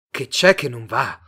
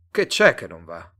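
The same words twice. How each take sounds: First: Voice starting to rise. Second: Said in the usual way. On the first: A narrator's reading. Simon echoing Mr Tate's question, voice rising. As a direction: throw "Che c'è che non va?" back, voice rising. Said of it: "cominciò ad alzarsi".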